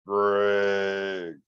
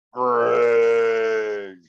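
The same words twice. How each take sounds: First: The voice from the woods, imitated with an unfamiliar timbre; a lightly mimicked call of his name out of the dark; mimicked creature voice. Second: A louder imitated call, with a timbre unlike his own; mock the creature calling his name out loud from behind the tent; mimicked loud call. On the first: Retelling a night at camp, imitating the thing that called his name. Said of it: "It sounded like it said my name". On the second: Telling the host the creature called again, imitated as a louder call. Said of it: "immediately it said it again".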